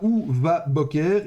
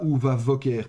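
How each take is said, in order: First: The consonant is a hard stop sound. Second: The consonant is a soft fricative sound. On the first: The speaker calls it right. "on prononcera ou va boker" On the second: The speaker calls it wrong. "et pas ou va voker"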